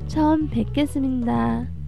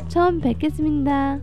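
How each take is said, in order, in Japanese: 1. ゆっくり話されている。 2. 少し速く話されている。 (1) "最初ゆっくりで、" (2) "次は少し早めに発音してみましょう。"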